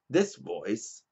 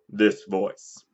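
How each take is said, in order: First: The voice is lighter and less commanding. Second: The voice is deep and authoritative. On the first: This is the voice chosen to avoid sounding authoritative. "So I picked to use this voice" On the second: This is the real, more masculine voice. "instead of this voice"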